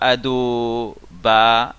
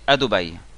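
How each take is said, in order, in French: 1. L'accent tombe sur l'avant-dernière syllabe. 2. L'accent tombe sur la dernière syllabe. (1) "on dit pas Adoba" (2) "en mille est rare"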